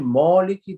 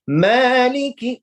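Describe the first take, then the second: First: The vowel is said without lips spread wide. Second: The vowel is said with lips spread wide. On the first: The speaker calls it wrong. "then it's wrong" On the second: The speaker calls it right. "with the smile"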